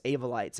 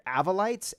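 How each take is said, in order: First: "Avolites" starting AY as in "day", settling down; long-a pronunciation. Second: "Avolites" starting AV as in "have", questioning lift; short-a pronunciation. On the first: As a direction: say "Avolites" as AY-vo-lites, falling. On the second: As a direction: say "Avolites" as AV-uh-lites, rising. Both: Shown as a demonstration. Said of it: "I don't know if it's Avolites or Avolites".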